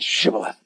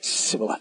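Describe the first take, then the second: First: The word begins with an 'sh' sound. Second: The word begins with a plain 's' sound. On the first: The speaker is marked as one of the group. The speaker calls it right. "It wasn't shibboleth" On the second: The speaker is marked as an outsider. The speaker calls it wrong. "They said sibboleth. Did you hear that?"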